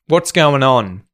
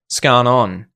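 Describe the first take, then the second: First: What is is shortened to one syllable, what's. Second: The phrase is squeezed into two syllables, scan on. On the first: "Gets contracted down to what's going on" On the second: "even in Australian English"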